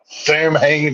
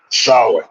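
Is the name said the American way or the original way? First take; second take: American; original. First: It is said in the American way. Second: It is said in the original way. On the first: "is how the Americans pronounce it" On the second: "is how it's originally pronounced"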